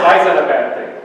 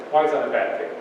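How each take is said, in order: First: Louder, putting the question to the room; raised-voice question. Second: Said in the usual way. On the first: Real, not acted. Speaker quizzes audience on lost cursive, raised voice. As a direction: throw the question out loudly to the audience.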